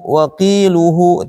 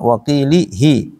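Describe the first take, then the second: First: The vowel after the l is 'u'. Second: The vowel after the l is 'i'. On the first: "dan dhammah" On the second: "huruf lam dibaca kasrah"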